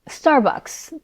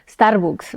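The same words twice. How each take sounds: First: It is said with an American English accent. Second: It is said with a Mexican Spanish accent.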